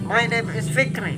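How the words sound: The voice sounds nasal, coming through the nose. "different, really different, because uh, they are coming from my nose"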